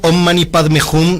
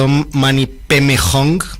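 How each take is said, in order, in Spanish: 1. El mantra se dice con pronunciación sánscrita. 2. El mantra se dice con pronunciación tibetana. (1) "la forma de pronunciar sánscrita" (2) "como la forma tibetana"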